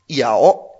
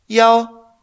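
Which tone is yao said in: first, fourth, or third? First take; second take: third; first. First: It is said with a dipping third tone. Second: It is said with a high level first tone. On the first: It means to bite. "Un tercer tono es morder" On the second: It means the number one. "Yao en un primer tono"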